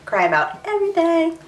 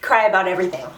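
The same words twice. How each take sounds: First: "Cry about everything" repeated much higher in a mock-whiny tone; self-mocking high-pitched repeat; mock whine. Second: Said in the usual way. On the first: Shown as a demonstration. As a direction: make fun of yourself, squeaky and high. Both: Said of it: "Hormones, guys".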